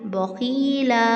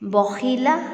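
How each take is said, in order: First: The vowels are drawn out long. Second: The vowels are kept short. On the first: The speaker calls it wrong. "ऐसे नहीं पढ़ना" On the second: The speaker calls it right. "हरकत लंबी नहीं होनी चाहिए"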